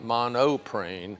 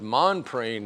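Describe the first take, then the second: First: The name has three syllables, mo-no-prene. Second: The name has two syllables, mon-prene. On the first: The speaker calls it wrong. "not monoprene" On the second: The speaker calls it right. "but Monprene"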